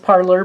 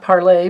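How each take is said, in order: First: The word ends with an 'er' sound. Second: The word ends with an 'ay' sound. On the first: The name is said the American way. The speaker calls it right. "I believe it's parlor" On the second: The name is said the French way. The speaker calls it wrong. "not parlay"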